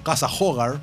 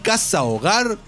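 First: It is said with an American English accent. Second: It is said with a native Spanish accent. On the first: This is how English speakers mispronounce it. The speaker calls it wrong. "todos los yanquis pronuncian Casa Hogar" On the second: This is how it should be pronounced. The speaker calls it right. "¿no pueden decir Casa Hogar?"

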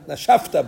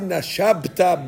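First: The consonant before -ta is an f sound. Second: The consonant before -ta is a b sound. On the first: The speaker calls it right. "So they turn the bet to a pe. It should be nashafta" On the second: The speaker calls it wrong. "If you would say Nashabta Beruchacha, Two bets in a row like that is difficult"

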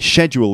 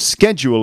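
First: The word is said the British way. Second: The word is said the American way. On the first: "schedule is the way it's said in the UK" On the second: "schedule is the way that they say it in the USA"

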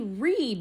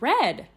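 First: The vowel sounds like 'ee'. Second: The vowel sounds like 'eh'. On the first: The speaker calls it right. "E-A is actually pronounced like an E-E, like read" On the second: The speaker calls it wrong. "not read"

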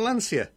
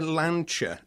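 First: The name is said with English vowels and sounds. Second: The name is said with Italian vowels and sounds. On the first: The speaker calls it right. "I say Lancia" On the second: The speaker calls it wrong. "when I hear somebody say Lancia, I just think, do you go to Milano?"

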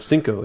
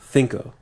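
First: The first consonant sounds like an s. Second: The first consonant sounds like a th. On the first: This is the Latin American pronunciation. "instead of cinco" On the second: This is the mainland Spain pronunciation. "I'm learning the mainland Spain version"

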